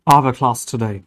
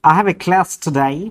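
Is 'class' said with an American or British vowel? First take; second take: British; American. First: The vowel in class is a long broad ah. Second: The vowel in class is a short flat a.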